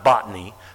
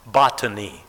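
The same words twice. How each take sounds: First: The T sound is softened, not clearly pronounced. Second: The T sound is clearly and crisply pronounced. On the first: The speaker calls it wrong. "Not botany" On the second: The speaker calls it right. "Got to pronounce the T in those words"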